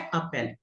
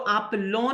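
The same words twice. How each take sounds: First: एप्पल said a-pel, ending clean on the l; correct plain ending. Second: एप्पलों with a nasal lon ending, the wrong way; wrong ending sounded. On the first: Teacher showing students the right way, clean a-pel. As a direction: say एप्पल short, no ending after the l. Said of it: "just बोलना है एप्पल". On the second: Teacher showing students the wrong way, nasal ending. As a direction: say एप्पलों as apl-on, nasal on at the end. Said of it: "एप्पलों नहीं बोलना". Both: Shown as a demonstration.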